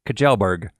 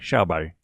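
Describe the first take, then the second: First: The name is read out as it is spelled. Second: The name is said the Swedish way. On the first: The speaker calls it wrong. "it looks to me like it should be said Kjellberg, but I know that's not correct" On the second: The speaker calls it right. "we listened to a Swedish person online say his name, and it sounded like Shelby"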